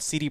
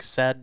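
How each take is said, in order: First: CD is spoken as English letter names. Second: CD is spoken the Polish way, like 'tseh-deh'. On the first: The speaker calls it wrong. "Somebody said you pronounce it wrong" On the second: The speaker calls it right. "You got to pronounce it differently"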